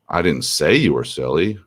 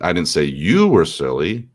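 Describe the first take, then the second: First: The stress is on "say". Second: The stress is on "you".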